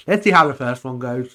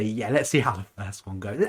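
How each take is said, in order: First: Louder quote. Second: Said in the usual way. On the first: Retold or imitated. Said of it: "people just". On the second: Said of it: "why you may wanna say".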